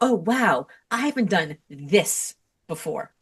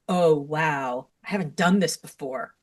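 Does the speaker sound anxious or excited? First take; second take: excited; anxious. First: It is said in an excited, curious tone. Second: It is said in a worried, dreading tone. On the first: The speaker welcomes something new. The speaker calls it right. "is exciting and it's curious" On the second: The speaker expects to fail. The speaker calls it wrong. "oh no, it's going to be terrible"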